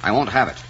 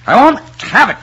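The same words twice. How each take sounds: First: Controlled, indignant refusal; restrained anger; firm refusal. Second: High, loud, explosive refusal; enraged outburst; furious shout. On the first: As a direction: put your foot down without shouting. First, more restrained refusal. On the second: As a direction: shout it at the top of your voice. Same refusal, shouted in anger. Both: Acted.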